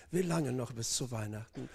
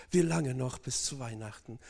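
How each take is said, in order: Both takes have the same delivery.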